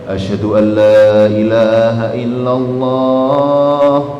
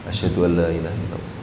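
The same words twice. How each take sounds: First: The phrase is said loudly and clearly aloud. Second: The phrase is said quietly, not aloud. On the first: The testimony is then proclaimed openly. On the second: The testimony is first said privately. "Tapi dia nggak keras kan?"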